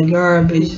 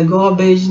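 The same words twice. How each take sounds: First: "garbage" with ah and a sounded r; corrected garbage. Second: "garbage" with a rounded o, like gaw-bage; mispronounced garbage. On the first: Teacher correcting her own slip, "garbage" with clear ar. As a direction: open "garbage" to gar, r pronounced. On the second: Teacher showing a slip to avoid, "garbage" as gaw-bage. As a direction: round the first vowel of "garbage" to o. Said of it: "não é garbage". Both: Shown as a demonstration.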